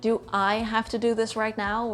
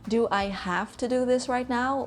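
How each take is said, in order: First: The word 'I' carries the emphasis. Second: The word 'have' carries the emphasis. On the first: Someone else could do it instead. "do you really have to, or could someone else do it" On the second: It may be optional rather than required. "or is it more like a nice to have?"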